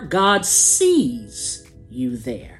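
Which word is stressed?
sees. The stress falls on the word sees.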